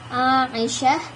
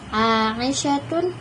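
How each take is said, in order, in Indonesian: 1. Kata ini berakhir dengan bunyi h yang lembut. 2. Kata ini berakhir dengan t diikuti bunyi vokal. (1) "diucapkan ha'an, ha, sakinatun, ketika ia dalam keadaan sukun" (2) "dibaca sebagai ta ma'al harakatis tsalatsa"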